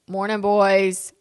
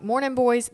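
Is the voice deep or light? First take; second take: deep; light. First: The voice is low and deep. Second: The voice is light and gentle. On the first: The speaker is trying to get the kids' attention. "it normally sounds like" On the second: The speaker is greeting the kids warmly. "but I'm like"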